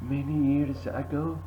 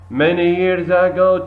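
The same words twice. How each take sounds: First: The line is read in a quiet voice. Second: The line is read in a loud voice. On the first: "In a quiet voice" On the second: "in a loud voice"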